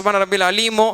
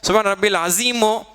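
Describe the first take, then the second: First: The last word is said with an L sound. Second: The last word is said with an S sound. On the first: It means the Lord who gives painful punishment. "Tamil ஸ்பீக்கிங்காக இருக்கவங்க தஜ்வீத் படிக்காதவங்க அலீம்னு சொல்லுவோம்" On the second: It carries a different meaning, or none. "Urdu ஸ்பீக்கிங்காக இருக்கவங்க தஜ்வீத் தெரியாதவங்க அசீம்னு சொல்லுவோம்"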